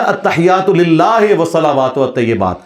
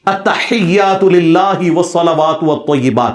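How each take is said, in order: First: "للہ" said lillaahe and "والطیبات" with e vowels, in Urdu fashion; imitated majhool recitation. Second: Slow, drawn-out "التحیات للہ والصلوات والطیبات", "للہ" ending in a pure i; ma'roof recitation. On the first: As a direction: imitate a cleric reciting "التحیات للہ" with e in place of i. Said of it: "وہ پڑھے گا". ("للہ" کو مجہول "لِلّاہے" پڑھ کر مولوی کی نقل کریں)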